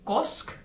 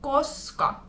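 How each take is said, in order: First: The word is clipped, dropping the final vowel. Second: The word is said with both syllables in full. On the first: "Finnish people like to shorten words, sometimes people will say kosk" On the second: "because in Finnish is koska"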